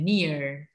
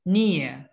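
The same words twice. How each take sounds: First: The final R sound is pronounced. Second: The final R sound is dropped. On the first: "Kalau dimunculin R-nya jadi American" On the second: "kalau R-nya dihilangin American, eh British"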